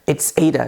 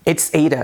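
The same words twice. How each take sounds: The two takes are said the same way.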